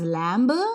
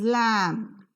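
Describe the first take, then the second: First: The word ends with a b sound. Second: The word ends with an m sound. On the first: The speaker calls it wrong. "you pronounce this not as lamb" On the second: The speaker calls it right. "B sound is always silent"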